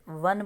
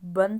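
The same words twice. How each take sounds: First: The word begins with a v sound. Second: The word begins with a b sound. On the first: The speaker calls it right. "वन बोलते हैं" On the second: The speaker calls it wrong. "वन तो नहीं बोलते"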